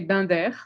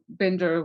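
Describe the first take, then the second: First: The name is pronounced with French sounds. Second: The name is pronounced with English sounds. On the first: "So in French, I would say Binder" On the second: "Binder will do just fine"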